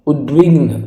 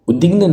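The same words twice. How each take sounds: First: उद्विग्न with clear "dv"; correct v after d. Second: उद्विग्न without the v; wrong missing v. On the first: Teacher gives the correct उद्विग्न, v sounded after d. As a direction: say उद्विग्न as "ud-vign". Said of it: "आधा हुआ लगना चाहिए". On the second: Teacher rejects this उद्विग्न, v dropped. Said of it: "उद्विग्न नहीं होगा". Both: Shown as a demonstration.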